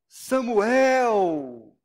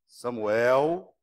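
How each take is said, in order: First: The name is said in a warm, welcoming tone. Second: The name is said in a cautioning, warning tone. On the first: The person is being welcomed. "um bem-vindo" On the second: The person is being cautioned. "uma advertência"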